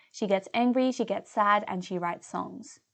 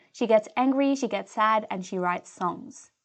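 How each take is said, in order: The two takes are said the same way.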